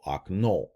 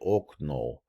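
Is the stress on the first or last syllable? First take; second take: last; first. First: The stress is on the last syllable. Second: The stress is on the first syllable. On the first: The speaker calls it right. "the accent's on the uh, uh, last syllable" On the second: The speaker calls it wrong. "you don't say okno"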